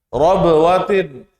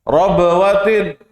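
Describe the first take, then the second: The two takes are said the same way.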